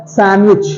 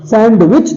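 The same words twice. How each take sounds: First: "सैंडविच" said san-wich, d dropped; silent D. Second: "सैंडविच" said sand-wich, d heard; sounded D. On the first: Teacher giving correct sandwich, silent D. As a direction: skip the d in "सैंडविच". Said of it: "डी silent है". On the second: Teacher showing wrong sandwich, sounded D. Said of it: "सैंडविच तो नहीं होता है". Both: Shown as a demonstration.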